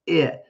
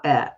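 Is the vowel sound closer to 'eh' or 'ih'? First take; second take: ih; eh. First: The vowel is a short 'ih' sound. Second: The vowel is an open 'eh' sound. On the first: The speaker calls it right. "It's I" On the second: The speaker calls it wrong. "not eh"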